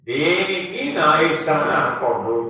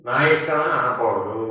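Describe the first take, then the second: First: దేనికి stressed, the whole line slowed down; slow emphatic. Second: Said in the usual way. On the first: Shown as a demonstration. Preacher drives the lesson home to listeners, slow and emphatic. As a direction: lean on దేనికి and drag the rest out slowly.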